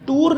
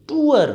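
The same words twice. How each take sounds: First: "टूर" as one syllable with long oo; mispronunciation. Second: "टूअर" in two syllables; correct pronunciation. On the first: Teacher rejecting the learners' version, one-syllable "टूर". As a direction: say "टूर" straight into the r. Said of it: "नहीं है ये". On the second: Teacher correcting learners, two-syllable "टूअर". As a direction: glide from oo into "er" in "टूअर". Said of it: "टूर नहीं है ये". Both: Shown as a demonstration.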